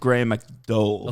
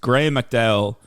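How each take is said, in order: First: The O in McDowell is drawn out. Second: The O in McDowell is short. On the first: This is how it is said in Ireland. "the O is more pronounced" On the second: This is how it is said outside Ireland. "everywhere else in the world except Ireland"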